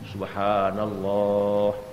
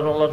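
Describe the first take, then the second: First: It is said slowly and devoutly. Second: It is said quickly and carelessly.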